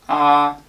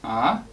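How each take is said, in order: First: The pitch stays level and high throughout. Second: The pitch rises like a question. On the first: "a flat tone" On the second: "sounds like you're asking a question"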